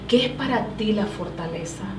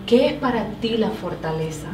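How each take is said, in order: Both takes have the same delivery.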